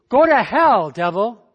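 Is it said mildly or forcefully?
mildly. It is said mildly, without strong conviction.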